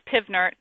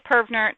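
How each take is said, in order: First: The first syllable has an 'i' vowel. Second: The first syllable has an 'er' vowel. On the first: "I know physics says pivnert" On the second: "I say pervnert"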